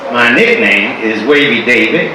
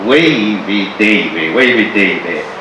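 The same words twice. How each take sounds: First: Said in the usual way. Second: "Wavy Davy" slow and low, savoring each word; drawn-out name. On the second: Shown as a demonstration. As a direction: stretch out "Wavy Davy" like a title.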